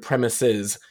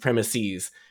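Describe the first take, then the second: First: The last syllable does not rhyme with 'please'. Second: The last syllable rhymes with 'please'. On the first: The speaker calls it right. "does not rhyme with please" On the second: The speaker calls it wrong. "instead of premises"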